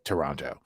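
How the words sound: It is said with an American pronunciation. The speaker calls it wrong. "I've been pronouncing like an American this whole time"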